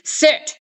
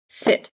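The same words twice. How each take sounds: First: It is yelled loudly like a drill sergeant. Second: It is said firmly at normal volume.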